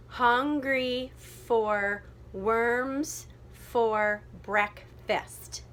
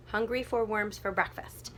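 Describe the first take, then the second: First: Very slow, every syllable apart; checking syllables. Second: Said in the usual way. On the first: Shown as a demonstration. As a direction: lay out each beat with gaps. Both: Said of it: "double check the syllable".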